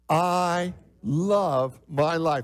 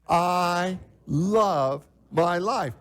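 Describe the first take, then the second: First: It is said without much conviction. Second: It is said with real conviction.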